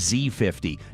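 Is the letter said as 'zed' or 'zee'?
zee. The letter is pronounced 'zee', American style. This is the way used outside Canada. "not the Z fifty"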